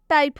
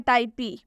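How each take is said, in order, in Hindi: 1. शब्द p की ध्वनि पर खत्म होता है, कोई स्वर नहीं। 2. शब्द के अंत में एक लंबा ee स्वर जुड़ा होता है। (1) "इसका सही उच्चारण टाइप होगा" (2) "या टाइपी"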